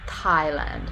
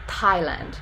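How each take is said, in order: First: It begins with a tongue-on-teeth 't' and a puff of air. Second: It begins with a tongue-on-teeth 't' and a puff of air.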